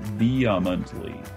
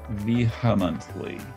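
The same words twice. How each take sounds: First: There is no H sound after the V. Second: There is a strong H sound after the V. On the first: The speaker calls it right. "the dictionary shows no H sound, so it should be vehemently" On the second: The speaker calls it wrong. "I put a little tiny H sound in there after the V, ... That's a big H sound"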